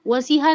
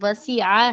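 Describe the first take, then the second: First: The middle consonant is a plain h sound. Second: The middle consonant is a throaty ain sound. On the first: The speaker calls it wrong. "उसको पढ़ते हैं वसीहा। वसीहा नहीं है ये" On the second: The speaker calls it right. "वसीआ है ये आइन। तो आइन को वाज़े तौर पर पढ़ें।"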